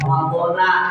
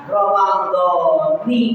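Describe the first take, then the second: First: The word ends with an 'a' vowel. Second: The word ends with an 'i' vowel. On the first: The speaker calls it wrong. "bukan Ramadhana" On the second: The speaker calls it right. "maka Ramadhani dibacanya"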